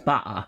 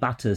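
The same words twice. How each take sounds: First: The middle consonant is a glottal stop. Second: The middle consonant is a clear t sound.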